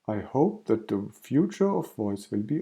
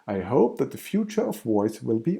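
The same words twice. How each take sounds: First: It is said flatly, with no emotion. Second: It is said with more lively expression. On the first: The speaker calls it wrong. "the boring without any special breathing, without any special face muscles" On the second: The speaker calls it right. "using more face muscles"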